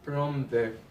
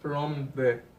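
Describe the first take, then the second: The two takes are said the same way.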